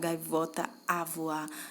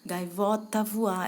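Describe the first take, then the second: First: The word 'a' is pronounced as a separate syllable. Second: The word 'a' merges into the final vowel before. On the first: The speaker calls it wrong. "A gente não fala gaivota a voar" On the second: The speaker calls it right. "É como se a também cortasse"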